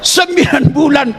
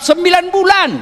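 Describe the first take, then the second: First: "Sembilan bulan" slow, with stress on "bulan"; drawn-out stress. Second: "sembilan bulan" repeated higher, with a punch on "bulan". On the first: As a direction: draw out "bulan" and lean on it. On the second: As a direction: hit "bulan" higher the second time. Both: Shown as a demonstration.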